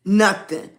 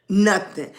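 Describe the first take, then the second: No difference in how they are said.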